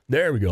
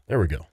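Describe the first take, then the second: First: Said in the usual way. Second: Deep sigh, then words; sighing with relief. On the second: Real, not acted. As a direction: breathe out long before speaking. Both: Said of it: "managed to pull in a full breath".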